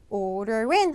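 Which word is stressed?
in. The stress falls on the second word. The speaker calls it right. "order in 하면 되겠죠"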